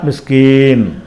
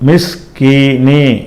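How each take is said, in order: First: The word ends on the n consonant. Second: The word ends with a short i vowel. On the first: The reading stops at this word. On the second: The reading continues to the next word.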